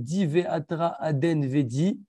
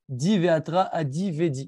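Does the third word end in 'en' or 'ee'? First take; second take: en; ee. First: The third word ends with an 'en' sound. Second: The third word ends with an 'ee' sound. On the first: The speaker calls it right. "au lieu de dire" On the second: The speaker calls it wrong. "ils disent comme ça"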